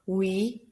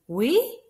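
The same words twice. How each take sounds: First: The voice does not rise at the end. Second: The voice rises at the end. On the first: It is a plain yes. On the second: It asks a yes question.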